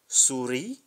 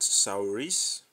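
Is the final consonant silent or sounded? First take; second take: silent; sounded. First: The final s is silent. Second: The final s is pronounced. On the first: The speaker calls it right. "Souris, and not souris" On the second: The speaker calls it wrong. "and not souris"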